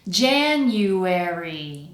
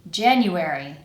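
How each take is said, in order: First: The word is said slowly and carefully. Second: The word is said at normal speed. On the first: "The first time kind of slowly" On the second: "the second time normally"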